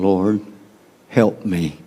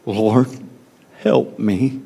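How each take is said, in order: First: Soft, low plea for help; quiet plea. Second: Soft plea with the stress on "help", rising at the end; emphatic quiet plea. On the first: Retold or imitated. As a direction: beg quietly from the floor at his feet. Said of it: "knelt before him saying". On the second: Shown as a demonstration. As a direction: lean on "help" softly and lift the end like a desperate question. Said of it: "in the emphasis".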